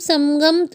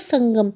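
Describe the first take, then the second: First: A full m is said before the g. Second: Said fast, the m blends into a nasal.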